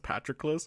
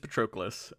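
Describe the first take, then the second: First: The name is said in a personal, self-taught way. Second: The name is said in the standard, accepted way. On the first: This is how the name sounded when read silently. The speaker calls it wrong. "I read the entire book as Patroclus" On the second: This is the accepted pronunciation of the name. The speaker calls it right. "so it is it is Patroclus"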